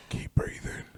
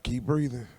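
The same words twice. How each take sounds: First: Whispered, very soft mock encouragement. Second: Softly spoken mock encouragement; hushed advice. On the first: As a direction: whisper it as if to someone fading. Repeats imagined words to stabbing victim. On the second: Imagined words to a stabbing victim.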